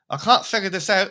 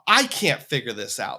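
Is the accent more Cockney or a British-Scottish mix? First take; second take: Cockney; British-Scottish mix. First: An accent with a slight Cockney sound. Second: An accent halfway between British and Scottish. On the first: The speaker calls it right. "There, that's better. A little Cockney" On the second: The speaker calls it wrong. "I can't do a Welsh accent. It's like halfway between British and Scottish"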